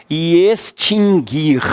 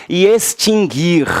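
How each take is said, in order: No difference in how they are said.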